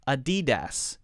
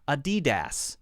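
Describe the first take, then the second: No difference in how they are said.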